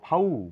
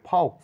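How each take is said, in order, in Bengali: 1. শেষের x নীরব থাকে। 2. শেষের x উচ্চারণ করা হয়। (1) "বলো" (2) "না বলে"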